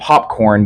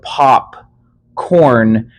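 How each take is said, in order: First: Only the first part is stressed, as one word. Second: Both parts are stressed as separate words. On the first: It names the snack eaten at the movies. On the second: It names two different things, soda and corn.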